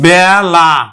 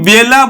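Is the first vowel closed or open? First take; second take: open; closed. First: The first vowel is an open æ sound. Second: The first vowel is a closed e sound. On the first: The speaker calls it right. "আমরা কিন্তু বলি বেলা" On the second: The speaker calls it wrong. "আমরা কিন্তু বেলা বলি না"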